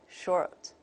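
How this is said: It has an R-colored vowel sound.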